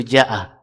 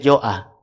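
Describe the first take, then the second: First: The first vowel is an open a sound. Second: The first vowel is a rounded o sound. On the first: The speaker calls it right. "Misalkan di situ ja'ah" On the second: The speaker calls it wrong. "saya membaca jo'ah... tidak boleh"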